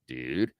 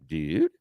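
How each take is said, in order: First: It sounds like a puzzled question. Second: It sounds shocked and alarmed.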